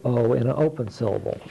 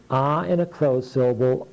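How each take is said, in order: First: "O" said like the letter's name; long O. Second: "ah" said as the short vowel of octopus. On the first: Student gives the open syllable sound, long "O". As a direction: say "O" as the long vowel in go. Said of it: "stands for the sound O in an open syllable". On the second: Student gives the closed syllable sound, short "ah". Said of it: "the student would say ah in a closed syllable". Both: Shown as a demonstration.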